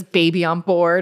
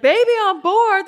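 First: Said in the usual way. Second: High-pitched imitation of an excited crowd; retold crowd exclamation, pitched far up; excited onlookers. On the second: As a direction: squeal the shirt slogan back in surprise. Crowd exclaims on reading her shirt.

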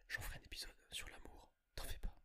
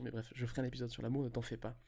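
First: Soft breathy whisper aside. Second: Said in the usual way. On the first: Real, not acted. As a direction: whisper it like a secret. Whispered aside then normal repeat.

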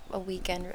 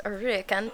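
First: Said in the usual way. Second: "weekend" said with an R, as "reekend"; blended mispronunciation. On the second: Shown as a demonstration. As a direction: run retreat into "weekend": "reekend". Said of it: "tried to say weekend and retreat at once".

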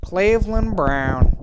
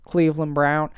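First: Slow, drawn-out cartoon character impression; Cleveland Brown. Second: Said in the usual way. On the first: Podcaster trying a cartoon impression for listeners, drawn-out character voice. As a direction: stretch the name out in a put-on voice. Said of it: "this impression of me doing Cleveland". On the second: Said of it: "me doing Cleveland".

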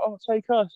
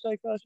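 First: Much higher, whiny begging; mock girly sister. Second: Much higher and softer whiny plea; mock girly sister, softer. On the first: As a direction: beg like a little sister, pitched way up. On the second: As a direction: trail off the begging, pitched up and quiet. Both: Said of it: "Sister's like".

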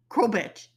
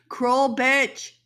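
First: Said in the usual way. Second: Higher and louder repeat of "Cruel bitch"; emphatic angry repeat. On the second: Real, not acted. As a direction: hit "Cruel bitch" harder the second time. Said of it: "cruel, cruel bitch".

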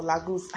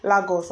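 First: "Lagos" as LAH-goose; Lah-goose version. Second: "Lagos" as LAH-goss; Lah-goss version. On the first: Retold or imitated. Rejecting the girl's version, "Lagos" as Lah-goose. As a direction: end "Lagos" with a long "oo". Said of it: "I can't say that". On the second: Shown as a demonstration. Weighing up two versions, "Lagos" as LAH-goss. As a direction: say "Lagos" with a short "goss" ending. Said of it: "Lagos or Lagos".

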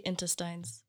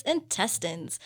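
First: "intestines" with the last syllable as "tines", rhyming with "lines"; the Kenyan way to say "intestines", ending "-tines"; Kenyan pronunciation. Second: "intestines" ending in a short "-tins", slowed; correcting a foreigner: "intestines" ending in "-tins"; American pronunciation. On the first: Shown as a demonstration. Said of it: "we say intestines". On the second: Retold or imitated. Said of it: "they'll be like".

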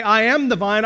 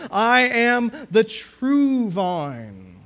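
First: Said in the usual way. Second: "I am the true vine" drawn out very slowly, raised pitch; emphatic, weighty declaration. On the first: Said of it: "not enough for him to just say". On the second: Shown as a demonstration. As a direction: stretch each word of "I am the true vine" to command attention. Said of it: "call the reader's attention to the importance".

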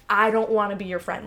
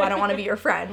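First: Raised, blunt brush-off; loud blunt rejection. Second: Raised, blunt and cold; loud blunt rejection. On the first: Retold or imitated. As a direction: push them away loudly. Quoted rejection hint. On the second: Pretend. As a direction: say it loud like a brush-off. Mock harsh break-up line.

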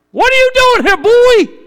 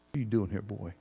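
First: Loud, very high thundering call; booming voice of God. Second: Soft, low, gentle question; still small voice. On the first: God confronts Elijah hiding in the cave, booming and high. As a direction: call down from heaven, demanding. A still small voice. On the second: God speaks gently to us in the cave, soft and low. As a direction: ask it almost under the breath, tenderly. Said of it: "a still small voice". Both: Pretend.

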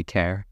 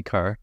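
First: CARE with an eh vowel, rhyming with air; CARE said standard. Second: CARE with an open ah vowel, like car; broad Northern Irish CARE, sounding like car. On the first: Bullied out of the accent, CARE with eh. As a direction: say CARE slowly with a clear eh. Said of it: "since then, I say care". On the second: Telling of school bullying, CARE said as car. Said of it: "I would say care". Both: Shown as a demonstration.

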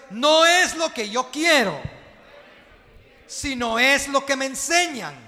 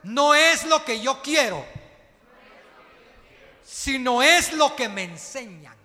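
First: Even louder chant on the second round; repeated even louder. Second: Loud congregational chant, led by the preacher; repeated loudly. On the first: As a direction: push it harder this time so the church echoes. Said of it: "Otra vez". (otra vez, aún más fuerte, la iglesia repite) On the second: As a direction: call it out strong for the church to repeat. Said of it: "quiero que repita conmigo fuerte". (el predicador dirige a la iglesia, fuerte y enfático) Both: Shown as a demonstration.

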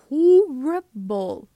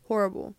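First: Horrible stretched very slowly, louder; drawn-out horrible. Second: Said in the usual way. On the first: Acted. Describing the K-pop industry, a drawn-out horrible. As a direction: drag out horrible in disgust. Dragged emphatic word.

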